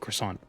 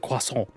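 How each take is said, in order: First: The word is said with an English pronunciation. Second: The word is said with a French pronunciation. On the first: The speaker calls it right. "I say croissant" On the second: The speaker calls it wrong. "I don't say croissant"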